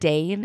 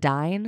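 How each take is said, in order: First: The vowel sounds like the one in 'day'. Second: The vowel sounds like the one in 'die'. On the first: The speaker calls it wrong. "It's not a Dane" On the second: The speaker calls it right. "it's a Dine?"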